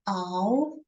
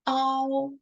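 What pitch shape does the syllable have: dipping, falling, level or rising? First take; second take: rising; level. First: The pitch rises from middle to high. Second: The pitch stays high and level.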